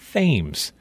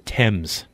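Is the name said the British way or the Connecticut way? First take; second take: Connecticut; British. First: It is said the Connecticut way. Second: It is said the British way.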